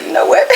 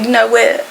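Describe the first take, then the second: First: Getting emotional. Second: Said in the usual way. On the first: Retold or imitated. To the cat, suddenly emotional and high-pitched. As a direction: voice jumping high as emotion breaks in. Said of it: "This when I started getting emotional". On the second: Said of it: "I was like".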